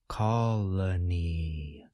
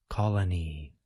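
First: The word is said slowly. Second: The word is said faster. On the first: "We can now add the first sound and say the entire word slowly" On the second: "We can now say the whole word a little bit faster"

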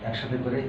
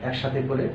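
No difference in how they are said.

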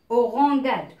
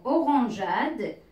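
First: The g is hard, as in go. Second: The g is soft, sounding like j. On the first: "si je ne mets pas le E, ça va se prononcer orangeade" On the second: "j'ai ajouté le E"

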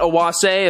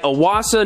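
First: The name ends with an 'ay' sound. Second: The name ends with an 'ah' sound. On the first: The speaker calls it wrong. "not Owase, apparently I've been pronouncing it wrong this whole time" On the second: The speaker calls it right. "that's right, Owasa"

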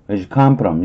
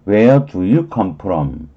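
First: The word 'do' is dropped entirely. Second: Every word is said fully, including 'do'.

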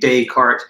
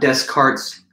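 First: The S in the middle is silent. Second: The S in the middle is clearly pronounced. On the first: The speaker calls it right. "you'd want to say with a silent or soft S" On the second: The speaker calls it wrong. "kind of butchering his name in an American way of saying it"

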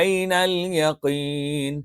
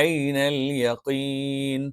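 The two takes are said the same way.

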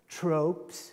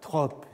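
First: The word is pronounced the English way. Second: The word is pronounced the French way. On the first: It means abstract particulars. "alors je prononce en anglais" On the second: It means figures of speech. "ce n'est pas les tropes, c'est-à-dire les figures du discours"

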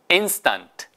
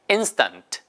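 The two takes are said the same way.

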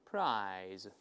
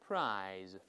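The two takes are said the same way.

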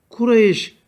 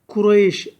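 No difference in how they are said.

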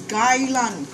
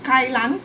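First: The word begins with a g sound. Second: The word begins with a k sound. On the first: This is the name used in English. "we pronounce it as gai lan, English way of calling" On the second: This is the Chinese name. "Chinese call it kai lan, K-A-I-L-A-N"

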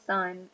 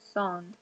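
First: It is said like the English word son. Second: It is said with a Spanish vowel. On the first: The speaker calls it wrong. "It's not son. It's not like come here, son" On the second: The speaker calls it right. "All right, it's son"

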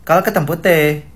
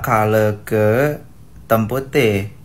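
First: The words are spoken very fast. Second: The words are spoken slowly. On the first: "Tapi cepet" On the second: "pas dia ngomong pelan-pelan gitu"

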